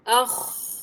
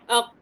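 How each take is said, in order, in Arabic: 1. الحرف الأخير خاء احتكاكية خشنة. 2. الحرف الأخير يُنطق مثل قاف موقوفة. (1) "لا" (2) "الخاء كذا عندك كانها قاف"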